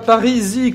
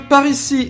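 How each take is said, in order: First: The final s sound is silent. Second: The final s sound is pronounced. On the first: The speaker calls it wrong. "et non pas Parisi, comme j'avais l'habitude de le prononcer" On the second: The speaker calls it right. "on a la chaîne de Parisis"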